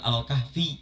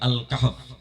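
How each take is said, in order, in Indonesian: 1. Kata ini diakhiri dengan vokal i yang ditambahkan. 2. Kata ini diakhiri dengan konsonan f. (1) "dibacanya bukan Al-Kahfi karena nggak ada huruf ya di akhir" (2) "tapi Al-Kahf"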